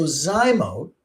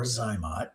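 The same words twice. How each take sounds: First: Zymote drawn out with a long O; correct pronunciation. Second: Zymot with a short O, softer; preferred pronunciation. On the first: Doctor offering viewers both names of the device, long-O pronunciation. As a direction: stretch Zymote, ending like "boat". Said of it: "I really do think it's Zymote". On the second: Doctor offering viewers the other name, short-O pronunciation. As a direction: drop softer on Zymot, ending like "hot". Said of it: "I'm just gonna call it Zymot". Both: Shown as a demonstration.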